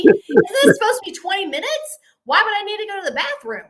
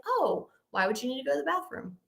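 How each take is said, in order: First: High, loud, rapid-fire questioning; openly alarmed disbelief. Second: Soft, quick, casual question; feigned cool and calm. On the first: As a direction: blurt out the disbelief you held inside. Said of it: "everything I'm expressing to you right now". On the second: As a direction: ask it lightly, stuffing the alarm inside. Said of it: "trying to act really cool and calm". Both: Retold or imitated.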